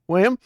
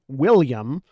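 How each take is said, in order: First: The L sounds are dropped, only implied. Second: The L sounds are clearly pronounced. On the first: "there's an implied L there, but it's not actually being said" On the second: "instead of going William"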